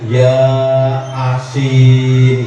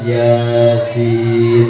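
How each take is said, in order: First: It is split into two separate words. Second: It is said as one smooth word. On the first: The speaker calls it wrong. "dibacanya Ya Asin gitu" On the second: The speaker calls it right. "Yang mestinya dibaca Yasin"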